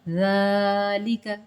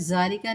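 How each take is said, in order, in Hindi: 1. पहला व्यंजन नरम th वाली आवाज़ है। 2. पहला व्यंजन कड़ी, गूंजती हुई z की आवाज़ है। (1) "ज़ की आवाज़ नहीं आनी चाहिए" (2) "देखिए मैं ज़ालिका नहीं कर रही"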